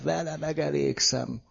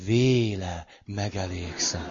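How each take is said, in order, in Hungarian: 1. Az első szó rövid magánhangzóval kezdődik. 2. Az első szó hosszú magánhangzóval kezdődik. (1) "Ott van az esküszövegben" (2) "A nagyon papos lelkészek azt mondják"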